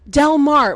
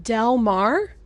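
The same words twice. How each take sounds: First: "Del Mar" spelled out flat and firm; emphatic "Del Mar". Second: "Del Mar" with rising disbelief; questioning "Del Mar". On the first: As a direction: stress "Del" in "Del Mar" falling. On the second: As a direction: ask "Del Mar?" incredulous. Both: Retold or imitated. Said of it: "I'm like".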